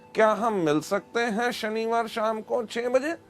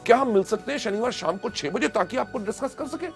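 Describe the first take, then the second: First: It is said without excitement, flatly. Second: It is said with excitement and energy.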